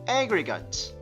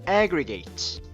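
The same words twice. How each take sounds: First: Strong first stress, the last syllable swallowed. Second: The last syllable is said fully and clearly. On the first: It is used as a noun or adjective meaning total. "앞에 있는 강세가 조금 더 진해지면서 뒤에 있는 거를 조금 더 먹어버리는 거죠" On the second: It is used as a verb meaning to gather. "동사할 때는 제가 아까 aggregate 이렇게 읽었었는데요"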